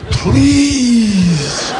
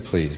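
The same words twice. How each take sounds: First: It is said desperately, pleading hard. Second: It is said casually, without much hope.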